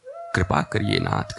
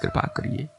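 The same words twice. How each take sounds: First: Tearful plea. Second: "कृपा करिए" squeezed out very high and soft, as if weeping; high crying plea. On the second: Hanuman begging Ram, in a high weeping whimper. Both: A narrator's reading. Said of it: "Hanuman जी रोए चले जा रहे हैं".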